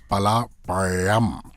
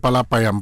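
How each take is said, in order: First: The consonant in payam is rolled. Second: The consonant in payam is a plain y. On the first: The speaker calls it right. "You have to roll the yeah" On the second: The speaker calls it wrong. "We used to say"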